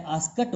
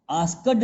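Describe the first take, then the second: First: आस्कट said with a final t sound, slowly; right pronunciation. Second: आस्कड said with a hard final d, as it is spelt; teacher voicing the wrong आस्कड, ending on d; wrong pronunciation. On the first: Teacher shows students the correct आस्कट, ending on t. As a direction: give आस्कट with a crisp final t. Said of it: "आस्कट होता है". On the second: शिक्षक छात्रों को गलत उच्चारण दिखाते हुए, आस्कड, अंत में ड. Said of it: "आस्कड नहीं होता है". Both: Shown as a demonstration.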